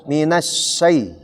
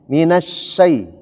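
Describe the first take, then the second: No difference in how they are said.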